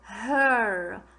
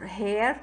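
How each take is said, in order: First: The vowel sounds like er. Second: The vowel sounds like air. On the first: The speaker calls it right. "this one you say er, her" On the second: The speaker calls it wrong. "the word you always keep saying is, you say uh, here, I think, or hair. No"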